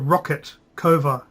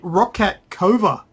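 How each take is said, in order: First: The name sounds like 'rocket'. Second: The name sounds like 'rock cat'. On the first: This is how the makers say it. "It's how they pronounce it in the uh, the trailer. Rocket" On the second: This is how the speaker first assumed it was said. "I thought it would be Rockcat"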